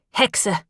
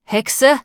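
First: Hexe abfällig, fallend ausgesprochen; verächtlich. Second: Hexe? höher und lauter, steigend, ungläubig; Hexe? empört zurückwerfen; empörte Rückfrage. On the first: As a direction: Hexe kurz und herabsetzend hinwerfen. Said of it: "Die Hände des Metzgers ballten sich". (der Langnasige schimpft über Alice, Hexe verächtlich fallend) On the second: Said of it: "Vor dem kalten Zorn des Metzgers". (der Metzger verteidigt seine Schwester, Hexe? empört steigend) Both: A narrator's reading.

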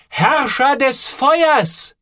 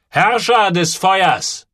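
First: Very slow, high, drawn-out proclamation; name the dragon with awe; solemn naming. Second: Slow, high repeat of the name; approving echo. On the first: Boy names the boiler solemnly. (Joel tauft den Kessel, feierlich und langsam) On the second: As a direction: savour the new name. (der Barfußmann wiederholt den Namen, anerkennend) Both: A narrator's reading.

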